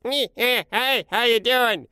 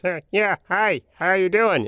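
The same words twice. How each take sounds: First: Much higher, slow squeaky boss voice; very high slow imitation of the same boss; Mike's boss imitation. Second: Imitating the boss. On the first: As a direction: do the other take on the boss, pitched way up. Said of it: "Mike's imitation was". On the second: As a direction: mimic the boss's funny way of talking. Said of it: "my imitation was".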